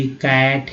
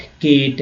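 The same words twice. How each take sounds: First: कैट drawn out slowly with open "ae"; short-vowel pronunciation. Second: केट with long "ay" as in "Kate"; long-A pronunciation. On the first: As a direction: say कैट like English "cat", slowly. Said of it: "ए लगा तो कैट". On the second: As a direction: close the vowel of केट to "ay". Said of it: "पहले तो ए के रूप में हुआ". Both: Shown as a demonstration.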